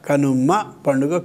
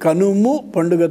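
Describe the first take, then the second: First: The first word ends with an 'a' vowel. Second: The first word ends with a 'u' vowel. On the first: The speaker calls it wrong. "కనుమ పండుగ కాదు" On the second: The speaker calls it right. "కనుము పండుగ తప్ప"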